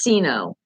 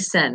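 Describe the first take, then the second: First: The beginning is two syllables, 'sino'. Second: The beginning is a short syllable, 'sen'. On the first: The speaker calls it right. "I think it's Sino" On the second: The speaker calls it wrong. "I keep saying sen"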